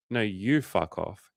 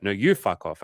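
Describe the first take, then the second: First: Slow, drawn-out comeback; unhurried mock retort. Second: Brisk mock comeback; quick, punchy retold retort. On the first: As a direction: stretch it out as a deliberate reply. Retold back-and-forth, his turn. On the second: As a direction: fire it straight back, imitating her. Retold back-and-forth, her turn.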